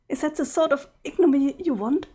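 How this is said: It is said in a put-on voice.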